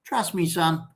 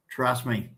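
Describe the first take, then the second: First: Said in the usual way. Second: A quieter, softer echo. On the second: Real, not acted. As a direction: drop the voice and repeat it more softly.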